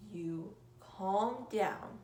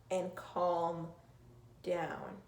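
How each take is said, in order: First: "calm down" stretched out very slowly; slowly, soothingly, a calm demo. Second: Said in the usual way. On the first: Shown as a demonstration. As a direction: draw out "You calm down" like you're calming someone.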